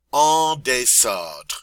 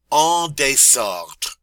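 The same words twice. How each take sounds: First: En désordre repeated slowly, falling; slow French repeat. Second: En désordre spoken slowly, loud, falling; slow French model. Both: Shown as a demonstration. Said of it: "En désordre means messy".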